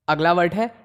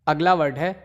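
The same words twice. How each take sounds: The two takes are said the same way.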